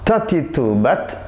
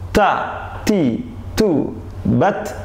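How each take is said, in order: First: The syllables are read fairly quickly. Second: The syllables are read slowly. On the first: It builds fluency. "Yang kedua agak cepat" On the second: It checks that the reading is accurate. "pertama gaya lambat"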